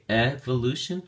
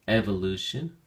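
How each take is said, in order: First: Evolution with Ev stressed, rising; teacher showing stress moved to Ev; stress on first syllable. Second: Evolution repeated, Ev stressed; teacher repeating evolution with stress on Ev; stress on first syllable. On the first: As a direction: model evolution, leaning on Ev. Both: Shown as a demonstration. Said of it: "stress is now on the first syllable".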